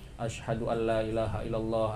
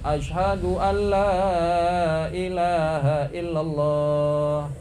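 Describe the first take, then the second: First: It is said quietly, under the breath. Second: It is said loudly, in a full voice.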